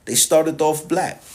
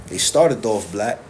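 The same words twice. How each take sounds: First: Slow and higher, leaning on "They started off black"; emphatic repeat. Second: Said in the usual way. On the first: Shown as a demonstration. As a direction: stretch out "started off black" for weight. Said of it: "they were black".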